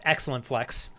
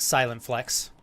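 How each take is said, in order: First: The name begins with an 'ex' sound. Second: The name begins with an 's' sound. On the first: The speaker calls it right. "my name's pronounced Excellent Flex" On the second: The speaker calls it wrong. "It looks like it's pronounced Silent Flex"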